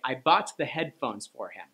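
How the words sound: The stress falls on the word headphones. The thing bought was the headphones. The speaker calls it right. "you were trying to draw attention to the headphones"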